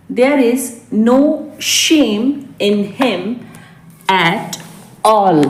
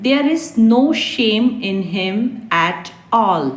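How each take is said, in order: First: There is no, shame, in him, at all, each chunk set apart by a clear pause; slow classroom dictation, pausing between chunks. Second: Said in the usual way. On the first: Shown as a demonstration. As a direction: break the line into short pieces for learners to repeat. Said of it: "teacher repeats in chunks". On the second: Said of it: "teacher's first model reading".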